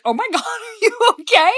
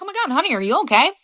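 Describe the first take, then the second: First: High, laughing "Oh my God"; laughing while asking. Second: Mildly concerned. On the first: Mom laughing at her daughter in the office, laughing high. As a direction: giggle through the question. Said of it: "I burst out laughing". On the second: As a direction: ask her with real worry. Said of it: "even I was a little concerned". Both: Retold or imitated.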